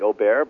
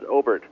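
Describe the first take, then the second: First: The name is pronounced the French way. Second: The name is pronounced the English way. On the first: This is how people in France say the name. The speaker calls it wrong. "I lived in France for a long time, and a lot of people call me Aubert" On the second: This is how the name's owner says it. The speaker calls it right. "the correct pronunciation is Obert"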